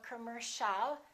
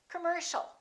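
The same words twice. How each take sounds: First: The first vowel is full and clear. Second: The first vowel is reduced and weak. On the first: The speaker calls it wrong. "or commercial" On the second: The speaker calls it right. "The O and the I A are both reduced"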